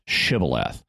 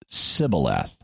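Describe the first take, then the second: First: The word begins with a sh sound. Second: The word begins with an s sound. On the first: It marks a speaker from Gilead. "people would pronounce this word with a sh sound on the front of it" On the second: It marks a speaker from Ephraim. "they just used an S sound and said it Sibboleth"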